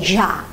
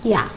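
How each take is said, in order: First: It is said with an Argentine accent. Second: It is said with a Spanish accent. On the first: "When it's Argentina, they say ya. It's different pronunciation" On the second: "in Spain we say the same, llave, ya"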